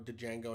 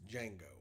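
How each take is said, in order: First: The D at the start is sounded. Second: The D at the start is silent. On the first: The speaker calls it wrong. "mispronounces it like that" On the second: The speaker calls it right. "It's Django"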